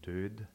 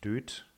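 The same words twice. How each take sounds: First: The final d stays soft and voiced. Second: The final d is hardened to a t. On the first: The speaker calls it right. "sondern död" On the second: The speaker calls it wrong. "Keine Auslautverhärtung, also nicht död"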